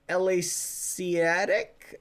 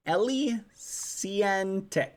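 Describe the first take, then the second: First: "Elysiatic" slowly sounded out; misread name. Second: "Elysiantic" slowly sounded out; corrected name. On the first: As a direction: read "Elysiatic" slowly, leaving out the n before the final -tic. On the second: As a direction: read "Elysiantic" slowly, with an n before the final -tic. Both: Real, not acted. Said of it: "I kinda misreading that".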